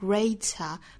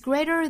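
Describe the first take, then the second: First: It is said with a British accent and clear t. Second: It is said with an American accent and flap t. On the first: "英音我们还记得吗？发成 greater" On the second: "美音发成 greater"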